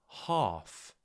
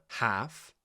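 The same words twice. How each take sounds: First: The vowel is a long, broad ah sound. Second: The vowel is a flat, front a sound.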